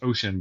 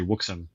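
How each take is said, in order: First: The word begins with an 'oh' sound. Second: The word begins with a 'woo' sound. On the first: The speaker calls it right. "That that word is pronounced" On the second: The speaker calls it wrong. "but I say ... And I know I'm wrong"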